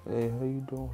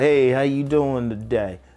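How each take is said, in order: First: The greeting sounds timid and unsure. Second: The greeting sounds confident and upbeat.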